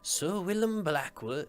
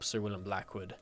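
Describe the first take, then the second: First: It is said in a Maester Aemon voice. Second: It is said in his normal voice.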